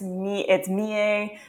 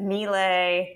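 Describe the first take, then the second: First: The name is said with a French pronunciation. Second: The name is said with a Norman pronunciation. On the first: "if it's French, it's Mie" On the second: "if you were Norman, you might have said Mile"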